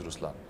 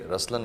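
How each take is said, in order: First: The first vowel is a rounded u sound. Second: The first vowel is an open a sound. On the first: The speaker calls it right. "but the right pronunciation is Ruslan" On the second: The speaker calls it wrong. "when you say Raslan also means the lion"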